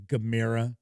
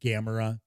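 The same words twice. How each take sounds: First: It uses a different, non-American pronunciation. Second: It uses the common American pronunciation. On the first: The speaker calls it right. "but it's actually" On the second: The speaker calls it wrong. "here in the U S, it's a lot of people pronounce it"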